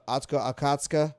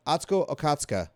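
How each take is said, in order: First: Fumbling Atsuko Okatsuka, feeling out each syllable; hesitant first try. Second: Atsuko Okatsuka said quickly and fluently; confident correction. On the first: Stumbling over a guest's name on stream. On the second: Correcting himself on a guest's name, sure now. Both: Real, not acted. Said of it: "I know how to say it".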